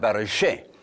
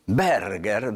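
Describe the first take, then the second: First: The name is said with a French pronunciation. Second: The name is said with a hard German pronunciation. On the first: "se puede pronunciar Berger, pero que es francés" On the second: "da duro, da alemán"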